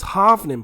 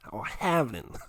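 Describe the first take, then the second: First: Said in the usual way. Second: Badly faked American accent on "halvening". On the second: Shown as a demonstration. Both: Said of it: "I can't do it in American voice".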